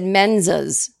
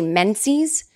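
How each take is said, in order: First: The word is pronounced in an unusual way. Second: The word is pronounced in the usual way. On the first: The speaker calls it wrong. "she pronounced this word weird" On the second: The speaker calls it right. "She was trying to say menses"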